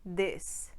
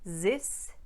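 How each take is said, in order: First: The word begins with a d sound. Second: The word begins with a z sound. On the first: "or ... dis" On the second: "pronounced either ... zis"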